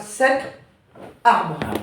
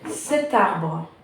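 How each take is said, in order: First: The two words are said without a linking T. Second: A T sound links the two words together. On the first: The speaker calls it wrong. "Tu ne dis pas" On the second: The speaker calls it right. "Tu fais comme s'il y avait un T ici"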